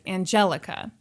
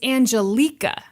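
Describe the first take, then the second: First: The middle of the name sounds like 'jelly'. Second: The middle of the name does not sound like 'jelly'. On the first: The speaker calls it wrong. "it looks to my eyes like" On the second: The speaker calls it right. "but it's"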